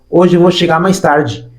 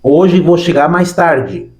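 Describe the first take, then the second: First: It is said a little faster. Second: It is said at a normal pace.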